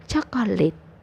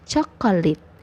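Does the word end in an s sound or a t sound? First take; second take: t sound; t sound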